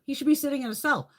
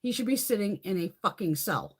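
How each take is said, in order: First: Fast, louder, with the pitch pushed up; louder, faster angry repeat. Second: Said in the usual way. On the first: Real, not acted. Ranting about a politician, now an angry faster repeat. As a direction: hammer the point home again, angrier and quicker.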